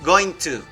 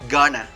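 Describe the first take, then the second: First: Both words are said fully and separately. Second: The words are blended into one reduced word. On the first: "there's an interesting thing uh, with going to" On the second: "you can say it like gonna"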